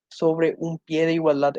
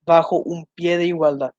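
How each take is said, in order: First: "sobre" leaned on, each word spaced out slowly; slow, stressing sobre. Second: Said in the usual way. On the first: Shown as a demonstration. Teacher dictating the correct form to students, slow with stress on sobre. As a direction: read it slowly, pushing sobre. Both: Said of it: "es la forma correcta".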